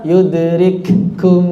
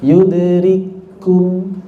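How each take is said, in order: First: Yudrikum with a doubled, held k; wrong doubled reading. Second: Yudrikum very slow with a single clear k; clear izhar reading. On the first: Teacher warning students against a doubled k. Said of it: "Jadi nggak dibaca". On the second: Teacher modelling the correct izhar for students, very slow. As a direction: draw out Yudrikum, keeping the k plain and single. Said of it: "Rikum itu izhar namanya". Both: Shown as a demonstration.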